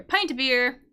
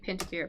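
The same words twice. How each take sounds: First: "Pint" with a long i, as in "pie"; corrected pronunciation. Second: "pint" with a short i, as in "pin"; accented pronunciation. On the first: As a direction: say "Pint" like "pine" with a t. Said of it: "I think pint". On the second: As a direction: say "pint" to rhyme with "mint", softly. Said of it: "We say pint of beer". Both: Shown as a demonstration.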